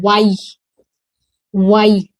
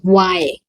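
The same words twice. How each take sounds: First: "वाई" as two sounds, waa-ee; wrong letter Y. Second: "वाई" as one gliding wai; correct letter Y. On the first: Teacher quoting how pupils say Y, wrong reading. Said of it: "गलत है". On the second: Teacher giving the right Y after correcting, correct reading. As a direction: run "वाई" together as one syllable. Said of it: "क्या होता है". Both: Shown as a demonstration.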